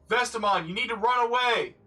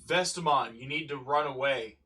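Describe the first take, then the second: First: It is yelled loudly with urgent energy. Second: It is said in a calm, low-energy voice. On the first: "Or maybe she could yell it again" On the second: "Did you yell it with that much urgency?"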